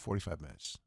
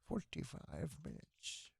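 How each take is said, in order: First: It is said in a plain, everyday voice. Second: It is said in an exaggerated put-on accent.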